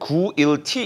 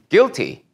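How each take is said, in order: First: An extra oo vowel is sounded after the g. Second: No oo vowel is sounded after the g. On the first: The speaker calls it wrong. "구일티 이렇게 읽진 않았죠?" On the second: The speaker calls it right. "마치 유가 없는 것처럼"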